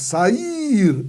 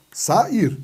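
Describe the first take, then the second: First: Sair with a high, drawn-out IR; stressed second syllable. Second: SAIR split into two syllables, sa-ir. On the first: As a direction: lean long and high on the "ir" of Sair. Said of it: "Ela é a mais forte?". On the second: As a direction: separate "sa" from "ir" in Sair. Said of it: "sílabas diferentes". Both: Shown as a demonstration.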